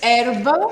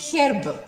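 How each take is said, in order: First: It is said in an American accent. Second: It is said in a British accent. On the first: "we say in American English" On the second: "In British English, we say"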